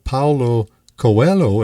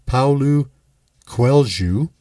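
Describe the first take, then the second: First: The name is read out in an anglicized way. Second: The name is said in a Portuguese way. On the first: The speaker calls it wrong. "it is spelled Paulo Coelho, it looks like" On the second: The speaker calls it right. "but I looked up the pronunciation"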